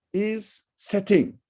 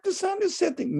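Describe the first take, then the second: First: Said in the usual way. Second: The sun "is" setting, with the "is" lifted high and stretched; stress on is. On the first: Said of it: "look at". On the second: Shown as a demonstration. Lecturer to students, pointing at "is" in a high voice. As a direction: lean hard on "is" in "the sun is setting". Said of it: "Yes, but look at".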